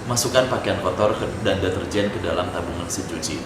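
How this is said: The reading sounds choppy, flat and bored. The instructions sound careless and dull. The speaker calls it wrong. "intonasinya itu nggak mengalun dan nggak nyambung"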